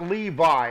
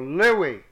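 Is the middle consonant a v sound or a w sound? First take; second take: v; w. First: The middle consonant is a v sound. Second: The middle consonant is a w sound. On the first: The speaker calls it wrong. "It is not a V as in victory" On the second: The speaker calls it right. "it's a W as in wish"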